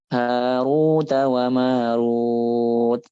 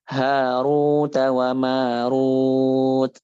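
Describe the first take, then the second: Both takes have the same delivery.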